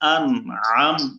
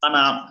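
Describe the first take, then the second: First: The n is held clearly before the next sound. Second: The n runs straight into the next vowel. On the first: The speaker calls it right. "ধরে পড়তে হবে আন আম" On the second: The speaker calls it wrong. "অনেকে আনাম"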